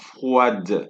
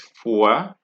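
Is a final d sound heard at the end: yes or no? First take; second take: yes; no. First: A d sound is heard at the end. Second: No d sound is heard at the end. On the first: The speaker calls it wrong. "it's not froide" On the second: The speaker calls it right. "the D at the end of the word are not pronounced"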